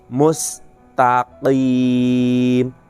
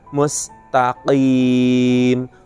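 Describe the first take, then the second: The two takes are said the same way.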